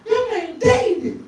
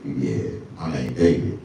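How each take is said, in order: First: Put-on high, slow girl's voice. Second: A lower, smooth self; low cool reply. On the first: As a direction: coo the name like an impressed girl. Girl repeats the name. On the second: Retold or imitated. His own cool answer.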